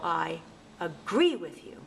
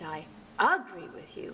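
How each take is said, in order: First: The stress is on the second syllable. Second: The stress is on the first syllable. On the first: The speaker calls it right. "the stress falls on the second syllable" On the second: The speaker calls it wrong. "I'm going to sound silly"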